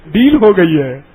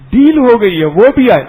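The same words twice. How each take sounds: First: Said in the usual way. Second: Louder, higher burst of excitement; ڈیل called out high and loud; excited exclaim. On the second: Retold or imitated. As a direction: announce the deal with glee. Children's deal, louder retake.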